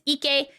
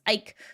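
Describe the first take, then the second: First: The name is said the Japanese way. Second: The name is said the North American way. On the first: "if it's Japanese pronunciation" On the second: "If it's North American pronunciation"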